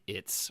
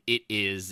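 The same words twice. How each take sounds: First: IT'S as one short word; the contraction IT'S, said as one; contracted. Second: IT IS as two separate words; uncontracted. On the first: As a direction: run it together into IT'S. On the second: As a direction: spell out IT IS, no contraction. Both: Shown as a demonstration. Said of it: "she didn't use contractions".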